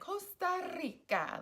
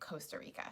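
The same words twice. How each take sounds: First: It is said with a Latin Spanish accent. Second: It is said with an American English accent. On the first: "a little more Latin" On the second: "super American, super English"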